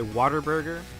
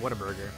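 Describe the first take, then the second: First: The name begins with a slurred 'water'. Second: The name begins with a clear 'what-a'.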